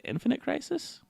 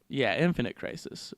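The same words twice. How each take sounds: First: Rising, unsure question; checking the name, high rise. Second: Said in the usual way. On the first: Real, not acted.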